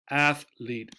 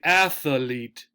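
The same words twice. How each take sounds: First: It is said with two syllables. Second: It is said with three syllables. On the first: The speaker calls it right. "Two syllables" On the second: The speaker calls it wrong. "Sometimes people will make this three syllables and they'll insert something in the middle"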